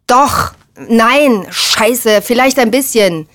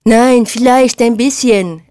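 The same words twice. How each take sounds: First: Agitated, raised voice, contradicting oneself; heated, cornered back-pedalling; flustered admission. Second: Slow, high, drawn-out aping; jeering, stretched-out imitation; mocking mimicry. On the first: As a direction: stumble into a reluctant confession. Flustered admission, later aped mockingly. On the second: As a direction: ape them with slow exaggeration. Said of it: "äffte Pauli nach". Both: A narrator's reading.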